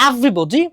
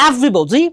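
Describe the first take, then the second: No difference in how they are said.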